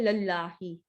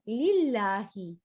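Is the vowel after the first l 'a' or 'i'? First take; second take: a; i. First: The first syllable has the vowel a. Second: The first syllable has the vowel i. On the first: The speaker calls it wrong. "you did not say lallahi" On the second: The speaker calls it right. "you read it as lillahi"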